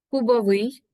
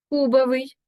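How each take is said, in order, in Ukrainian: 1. Наголос падає на останній склад. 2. Наголос падає на склад перед останнім.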